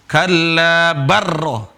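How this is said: The l merges straight into a doubled r. The speaker calls it wrong. "Tapi tidak dibaca seperti itu"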